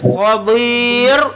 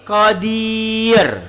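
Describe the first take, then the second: First: The r is pronounced thick and heavy. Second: The r is pronounced thin and light. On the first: The speaker calls it wrong. "bukan qadir" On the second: The speaker calls it right. "tapi qadir. Tipis"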